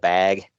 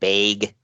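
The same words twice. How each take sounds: First: The vowel has the general American quality. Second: The vowel has the Minnesota regional quality. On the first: "instead of" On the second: "in Minnesota and uh, Wisconsin area, they change it"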